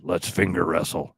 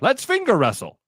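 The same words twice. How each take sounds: First: It is delivered in a plain, ordinary way. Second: It is delivered like a showy carnival barker. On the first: The speaker is not selling the challenge. The speaker calls it wrong. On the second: The speaker is selling the challenge. The speaker calls it right.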